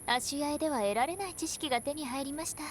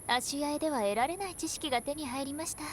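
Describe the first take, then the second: Both takes have the same delivery.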